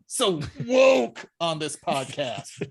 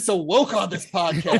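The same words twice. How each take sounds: First: It is said with heavy, venomous scorn. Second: It is said mildly, without much venom. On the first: The speaker calls it right. "There, it's now it feels more right" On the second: The speaker calls it wrong. "I didn't say that with enough venom"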